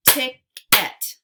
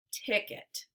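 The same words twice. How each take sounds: First: Ticket as loud "tick... et"; split into syllables. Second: Said in the usual way. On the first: Shown as a demonstration. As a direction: punch out both halves of Ticket separately. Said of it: "give you two parts to a word". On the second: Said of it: "swipe to say the whole word".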